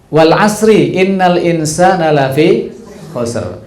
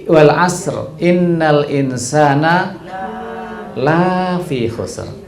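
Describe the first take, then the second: First: The vowel in lafi is short. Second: The vowel in lafi is long. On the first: Humans are truly at a loss. The speaker calls it right. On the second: Nobody is at a loss. The speaker calls it wrong.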